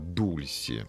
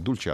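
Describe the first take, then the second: First: The middle consonant is an 's' sound. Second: The middle consonant is a 'ch' sound. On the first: The speaker calls it right. "а дульси" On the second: The speaker calls it wrong. "Не дульче"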